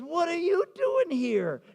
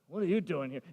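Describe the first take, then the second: First: It sounds happy and welcoming. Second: It sounds annoyed and unwelcoming.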